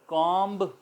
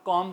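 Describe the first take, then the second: First: The word ends with an audible b sound. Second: The word ends in m, with no b. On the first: The speaker calls it wrong. "कॉम्ब बोला जाना चाहिए" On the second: The speaker calls it right. "हम उसको हम कॉम कहते हैं"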